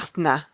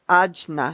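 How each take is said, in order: First: The middle consonant is an h sound. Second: The middle consonant is a j sound.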